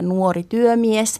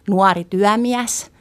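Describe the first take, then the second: First: The diphthongs keep their standard closed vowels. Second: The diphthongs are opened to wider vowels. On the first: "idässä diftongit ei yleensä avaru, eli siellä on tämä" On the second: "täällä lännessä diftongit avartuu, me sanotaan"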